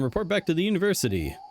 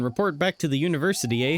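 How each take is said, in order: First: It is said in the speaker's ordinary accent. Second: It is said in a put-on Canadian accent. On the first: "No, I'm not doing it" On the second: "I'm not gonna try to do a Canadian accent the whole time"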